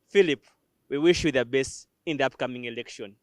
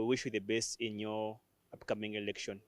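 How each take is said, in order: First: It is said with lively, strong energy. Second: It is said flatly, with little energy. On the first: The speaker calls it right. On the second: The speaker calls it wrong.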